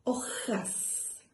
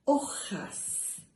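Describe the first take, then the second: First: Hojas breathed softly, throaty h then OH-has; carefully modeled hojas. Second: Hojas with a breathy, unvoiced rasp on the j, OH-has; carefully modeled hojas. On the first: Teacher repeats the hard word hojas for children, softly unvoiced. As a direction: model hojas gently for young learners. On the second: Teacher shows children a hard word, hojas breathed out softly. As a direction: whisper out hojas slowly so the j sounds. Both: Shown as a demonstration. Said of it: "una palabra un poco difícil".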